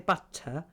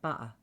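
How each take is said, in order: First: The middle t is a clear tongue-tip t. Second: The middle t is a glottal stop. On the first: "normally if you say butter, right? it's at the front" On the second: "it's at the back of your throat"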